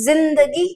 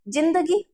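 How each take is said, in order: First: The word begins with a buzzing z sound. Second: The word begins with a plain j sound. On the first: The speaker calls it right. "सही उच्चारण" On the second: The speaker calls it wrong. "अगर मैं इसका उच्चारण करूं तो क्या बनेगा"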